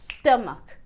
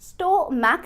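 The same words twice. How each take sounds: First: The stress is on the first syllable. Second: The stress is not on the first syllable. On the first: The speaker calls it right. "पहले syllable पर stress आएगा" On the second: The speaker calls it wrong. "Stomach नहीं"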